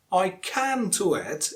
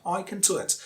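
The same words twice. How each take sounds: First: "can" with a full "a" vowel; strong form of CAN. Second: "can" reduced to "kən"; quick schwa in "can", softer overall; weak form of CAN. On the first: Teacher showing what to avoid, strong "can". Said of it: "You don't have to say can". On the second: Teacher showing the preferred way, weak "can". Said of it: "It's not required here". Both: Shown as a demonstration.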